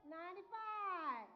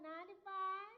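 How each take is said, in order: First: Loud, slow drawn-out call; shouted out. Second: Said in the usual way. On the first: Real, not acted. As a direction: call it out to the back of the room. Calling out the age again.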